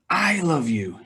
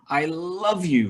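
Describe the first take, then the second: First: The word 'I' carries the main stress. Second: The word 'love' carries the main stress. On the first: The speaker loves, unlike another person. "he doesn't" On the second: The feeling is strong. "very much"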